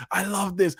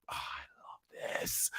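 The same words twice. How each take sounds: First: Higher, delighted burst; pitched-up fan delight; excited. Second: Breathless whispered gush; hushed fan whisper. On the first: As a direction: say it with fan joy. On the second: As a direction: whisper it, overcome with delight. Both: Real, not acted. Gushing over anime scene.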